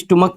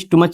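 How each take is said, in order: First: The word ends with a k sound. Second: The word ends with a ch sound. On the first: The speaker calls it right. "इसको भी स्टुमक पढ़ेंगे" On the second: The speaker calls it wrong. "स्टुमच नहीं पढ़ेंगे"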